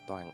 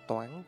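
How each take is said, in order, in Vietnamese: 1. Từ này được đọc với thanh thấp xuống. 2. Từ này được đọc với thanh cao lên. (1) "chứ không phải là Toàn Ánh" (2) "có cái dấu sắc"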